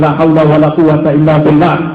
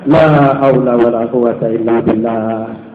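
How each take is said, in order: First: The Arabic phrase is pronounced in a distorted way. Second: The Arabic phrase is pronounced in the standard way. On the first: "Kemarin bilang la haula wala quwata illa billah, salah" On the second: "kita pun terpaksa mengucapkan"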